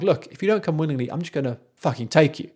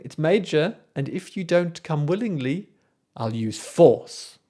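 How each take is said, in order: First: Threatening Erlking. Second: Smiling Erlking. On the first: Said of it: "He shifts". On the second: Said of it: "he's smiling". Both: Retold or imitated.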